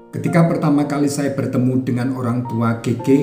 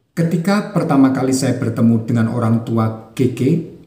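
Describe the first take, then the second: The two takes are said the same way.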